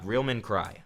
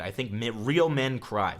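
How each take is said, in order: First: Said in the usual way. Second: Real said slowly and weighted, falling at the end; slow emphasis on real. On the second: Shown as a demonstration. Streamer telling chat real men cry, slow emphatic. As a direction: lay down the rule, slowly, leaning on real.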